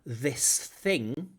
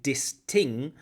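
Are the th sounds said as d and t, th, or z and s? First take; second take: th; d and t. First: The th sounds are said as real th. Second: The th sounds are said as d and t.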